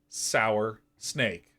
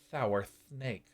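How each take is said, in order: First: The s sounds are clear and crisp. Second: The s sounds are lisped and soft.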